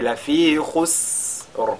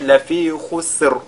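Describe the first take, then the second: First: The s sound is drawn out and hissed. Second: The s sound is short and clipped. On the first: The speaker calls it right. "Mais lafi khusr" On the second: The speaker calls it wrong. "là ce ne sera pas correct"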